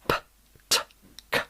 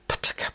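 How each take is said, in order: First: The sounds are said slowly and separately. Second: The sounds are said quickly in a run.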